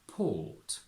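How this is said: Said in a British accent, R silent. "From American to British"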